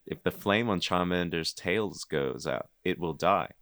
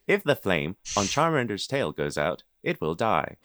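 First: It is said in the speaker's natural voice. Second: It is said in a put-on Dexter voice.

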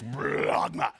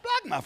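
First: It is said deep from the gut, gurgling. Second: It is said clearly, high up, without gurgling.

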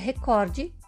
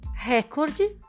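First: The stress is on the second syllable. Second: The stress is on the first syllable. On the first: The speaker calls it right. "porque o correto é recorde" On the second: The speaker calls it wrong. "estão incorretas"

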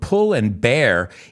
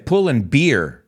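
First: The last word sounds like bear. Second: The last word sounds like beer.

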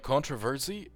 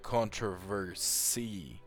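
First: The S is voiced, sounding like a Z. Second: The S is voiceless, sounding like an S.

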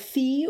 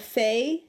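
First: The vowel is a long 'ee' sound. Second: The vowel is an 'ay' sound. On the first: "so it's either Fee or Fae" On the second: "so it's either Fee or Fae"

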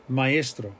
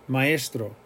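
Both takes have the same delivery.

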